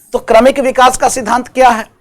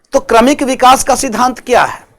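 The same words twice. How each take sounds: Both takes have the same delivery.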